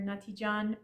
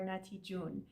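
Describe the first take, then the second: First: The final syllable has an open 'ah' vowel. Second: The final syllable has a rounded 'oo' vowel. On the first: "both pronunciations are fine" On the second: "pronounced ju, uh, un in spoken Persian"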